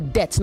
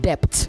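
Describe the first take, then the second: First: The b sound is silent. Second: The b sound is pronounced. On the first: The speaker calls it right. "The B in debt in D E B T is silent" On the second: The speaker calls it wrong. "not debt"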